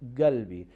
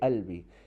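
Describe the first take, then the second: First: It starts with a hard g sound. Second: It starts with a glottal stop, no q.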